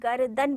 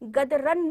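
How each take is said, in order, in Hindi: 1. r ध्वनि d के पहले आती है। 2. r ध्वनि d के बाद आती है। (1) "गर्दन बोलेंगे" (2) "गदरन नहीं बोलेंगे"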